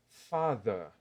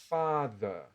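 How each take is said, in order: First: The final R is silent, ending in a vowel. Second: The same.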